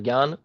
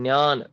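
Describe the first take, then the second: First: It begins with a 'gy' sound. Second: It begins with a 'dny' sound. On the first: This is how it is read in North India. "हम लोग यहाँ पढ़ेंगे" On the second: This is how it is read in Maharashtra. "उधर पढ़ा जाता है"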